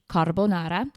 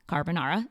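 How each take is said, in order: First: It is said without an American accent. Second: It is said with an American accent.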